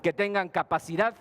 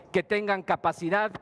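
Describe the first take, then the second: No difference in how they are said.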